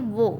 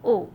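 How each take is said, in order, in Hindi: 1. इसमें स्वर से पहले w ध्वनि है। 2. यह सीधे स्वर से शुरू होता है, इसमें w नहीं है। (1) "हिरागाना में इसका साउंड है वो" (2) "पार्टिकल की तरह यूज करते हैं तो उसका प्रोनाउंसिएशन हो जाता है ओ"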